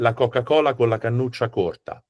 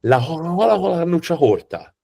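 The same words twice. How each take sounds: First: Said in the usual way. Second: Exaggerated Tuscan, every hard C breathed as H; high, mocking Tuscan "hoha-hola"; Tuscan accent. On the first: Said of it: "would be proper Italian". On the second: Shown as a demonstration. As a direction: imitate a Tuscan who can't say K. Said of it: "The Tuscans sound like this".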